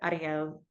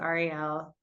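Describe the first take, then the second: First: The name is said the Spanish way. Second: The name is said the Jewish way.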